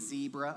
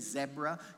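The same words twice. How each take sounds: First: It is said the American way. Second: It is said the British way.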